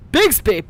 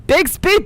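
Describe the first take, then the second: First: Said in the usual way. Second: Bixby rising high and louder; questioning rise. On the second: Shown as a demonstration. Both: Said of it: "What's Bixby?".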